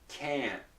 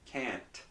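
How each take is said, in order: First: The final T is held and not released. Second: The final T is released with a puff of air. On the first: The speaker calls it right. "the T is not released" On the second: The speaker calls it wrong. "I pronounced it very clearly for you... I'm releasing the T"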